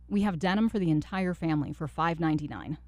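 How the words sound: The voice is low, bold and commanding. "an authoritative one"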